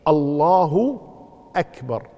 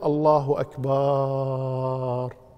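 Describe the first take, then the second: First: No sound is drawn out beyond normal length. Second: The vowel after the b is drawn out. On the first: The speaker calls it right. "لكن الصحيح الله أكبر" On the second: The speaker calls it wrong. "ولا يجوز أن يقول الله أكبر يمد الباء"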